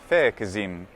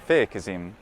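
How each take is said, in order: First: The middle consonant is a voiced z. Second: The same.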